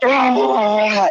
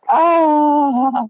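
First: The exclamation sounds angry. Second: The exclamation sounds joyous.

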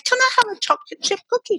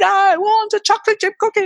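First: It is said in a sweet, nice voice. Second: It is said in a demanding, nasty voice.

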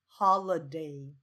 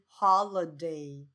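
No difference in how they are said.

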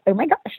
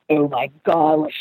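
First: It is said in an upbeat, high voice. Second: It is said in a low, serious voice. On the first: The character is excited and cheerful. "like that kind of like upbeat high voice" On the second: The character is very serious. "down here in his like voice and his register"

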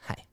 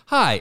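First: It is said in a whisper. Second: It is said in a normal voice.

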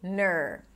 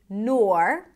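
First: The syllable is said with a plain 'er' vowel. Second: The syllable is said with an 'or' vowel. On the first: "if you want to make it super easy, just say ner" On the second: "You can either say nor"

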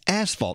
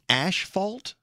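First: The first syllable sounds like 'as'. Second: The first syllable sounds like 'ash'. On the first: The speaker calls it right. "it's asphalt" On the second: The speaker calls it wrong. "are you saying ashfault?"

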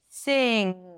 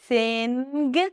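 First: It ends with only the NG sound. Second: It ends with an added hard G sound. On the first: The speaker calls it right. "you don't need to add the G sound" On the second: The speaker calls it wrong. "So it's not sing"

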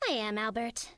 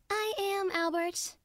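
First: It is delivered small and restrained. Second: It is delivered bigger, with more energy.

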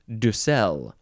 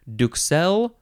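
First: The word is said without a K sound. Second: The word is said with a K sound. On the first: "or not" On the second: "you can pronounce a K sound"

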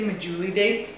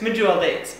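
First: The first word ends with an extra 'ee' syllable. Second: The first word ends on 'jool' with no extra syllable. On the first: The speaker calls it wrong. "I say this wrong, I say medjooly dates" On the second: The speaker calls it right. "Pretty sure they're medjool dates"

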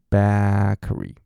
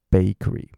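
First: The first vowel is said with an open jaw. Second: The first vowel is said with the jaw closed. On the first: The speaker calls it wrong. "很多人念成bakery" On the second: The speaker calls it right. "你让你下巴顶好，然后顶回去bakery"

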